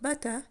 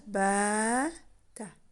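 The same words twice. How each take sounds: First: The first vowel is short and quick. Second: The first vowel is stretched long. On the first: It has no meaning. The speaker calls it wrong. "this one is shorter and faster and quicker in pronunciation" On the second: It means stayed. The speaker calls it right. "It's read as bata"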